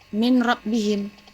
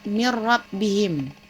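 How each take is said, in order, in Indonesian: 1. Bunyi n terdengar jelas sebelum r. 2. Bunyi n menyatu dengan r tanpa dengung. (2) "tapi yang benar"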